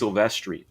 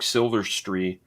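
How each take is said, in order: First: The name sounds like 'Silvestri'. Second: The name sounds like 'Silverstreet'. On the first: This is the actual name. The speaker calls it right. "it's Silvestri" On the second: This is how they said it before meeting him. The speaker calls it wrong. "My my friends and I called Mark Silvestri Mark Silverstreet"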